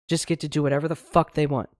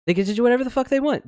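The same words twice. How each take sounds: First: Said in the usual way. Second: Higher, fast indignant repeat; exasperated outburst. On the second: Real, not acted. Host fuming about the powerful doing anything, fast higher outburst. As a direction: spit it out again, fed up. Repeats the line, second time punched.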